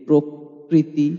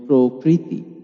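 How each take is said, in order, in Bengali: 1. ri-এর আগের k দুইবার উচ্চারিত হয়। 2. ri-এর আগের k একবার উচ্চারিত হয়। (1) "অনেকেই প্রকৃতিকে প্রকৃতি বলি" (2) "রিকার থাকলে কখনোই দ্বিতীয় বা দুইবার উচ্চারণ হবে না"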